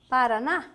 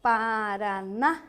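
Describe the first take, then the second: First: Said in the usual way. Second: "Paraná" slowly stretched, rising on the last syllable; drawn-out syllables. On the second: Shown as a demonstration. Teacher checking where the city is, "Paraná" drawn out. Example word stretched for class.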